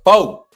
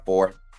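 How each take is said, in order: First: The word is said forcefully, with strong energy. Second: The word is said flatly, with little energy. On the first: The rating is an emphatic, solid four. "a strong four is like" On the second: The rating is just an ordinary four. "a four is like ah uh"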